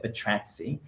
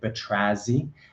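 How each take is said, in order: First: The double z is said as a ts sound. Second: The double z is said as a z sound. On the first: This is how the speaker chooses to say it. "a bit like pizza, so it's got that s sound" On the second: Some other people say it this way. "some people calling it"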